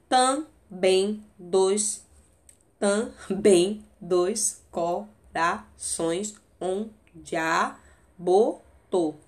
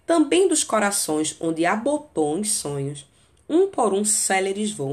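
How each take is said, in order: First: Slow scansion, chunk by chunk; "Também dois corações" drawn out for the count; counting syllables. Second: Reciting the sonnet to the class; poem reading. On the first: Shown as a demonstration. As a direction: tap out the ten syllables with pauses. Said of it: "Deu dez, tá vendo?". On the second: Acted. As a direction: recite the line flowing, at normal pace. Reads the tercet aloud.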